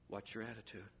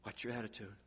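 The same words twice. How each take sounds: First: Even softer, lower warning; almost under breath; quieter warning. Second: Much softer, low warning; quiet warning. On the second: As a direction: lean in and caution. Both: Shown as a demonstration.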